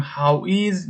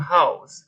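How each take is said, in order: First: "how is" said as two separate words; full form. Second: "how's" run into one syllable; contracted form. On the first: Teacher shows learners the long question word, "how is" uncontracted. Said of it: "به جای اینکه بگیم". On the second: Teacher shows learners the short question word, one-syllable "how's". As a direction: say "how's" with the s joined straight on. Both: Shown as a demonstration.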